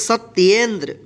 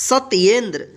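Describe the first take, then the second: Both takes have the same delivery.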